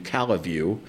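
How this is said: Calle is said the way LaGrange locals say it.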